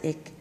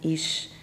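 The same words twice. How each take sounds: First: It is said in a Berlin dialect. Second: It is said in a Frankfurt dialect. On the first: "The Berliners pronounce it" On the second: "those from Frankfurt am Main"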